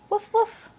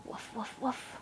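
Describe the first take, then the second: First: Woof woof barked high and loud. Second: Woof woof whispered, no voice. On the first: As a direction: bark woof woof up high, loudly. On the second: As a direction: breathe woof woof softly. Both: Shown as a demonstration. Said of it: "What's a dog say?".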